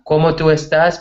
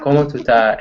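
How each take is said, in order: First: It is said in full standard Spanish. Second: It is said in clipped Dominican Spanish.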